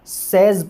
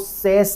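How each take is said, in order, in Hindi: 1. इस अंत में खुला e और z बोला जाता है। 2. इस अंत में खुला e और s बोला जाता है। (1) "कुछ बच्चे इसको सेज प्रोनाउंस करते हैं" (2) "बहुत सारे बच्चे क्या करते हैं यहां पे जाकर के मिस्टेक कर देते हैं"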